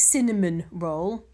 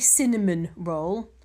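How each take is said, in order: First: It sounds exactly like the pastry name. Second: The same.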